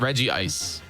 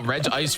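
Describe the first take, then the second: First: The name is said with three syllables. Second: The name is said with two syllables. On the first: "I say Reggie Ice" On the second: "Reggie Ice or Reg Ice?"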